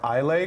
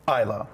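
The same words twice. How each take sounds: First: It is pronounced the way it is spelled. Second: It is pronounced the Scottish way. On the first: The speaker calls it wrong. "or Islay because it's I S L A Y" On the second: The speaker calls it right. "That's how they pronounce it in Scotland"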